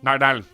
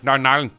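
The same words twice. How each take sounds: First: It is said in a Northern Irish accent, run together. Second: It is said in a Northern Irish accent, run together.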